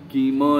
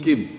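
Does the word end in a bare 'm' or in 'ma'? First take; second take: ma; m. First: The word ends with a full 'ma' syllable. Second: The word ends on a bare 'm' sound. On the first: The speaker calls it wrong. "म नहीं होता है, किम नहीं होता है" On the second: The speaker calls it right.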